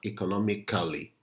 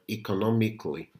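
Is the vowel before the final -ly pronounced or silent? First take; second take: pronounced; silent. First: The vowel before -ly is pronounced. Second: The vowel before -ly is silent. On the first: The speaker calls it wrong. "not economically" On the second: The speaker calls it right. "The same thing goes for the word economically"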